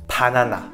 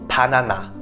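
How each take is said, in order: Both takes have the same delivery.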